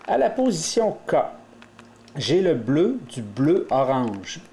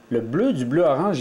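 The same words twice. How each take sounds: First: Slow, carefully spaced naming; slow and deliberate. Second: Said in the usual way. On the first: Shown as a demonstration. Teacher naming the piece slowly for learners, slow and deliberate. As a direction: lay out each colour slowly. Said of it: "teacher naming cube piece". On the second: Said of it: "teacher repeating the piece name".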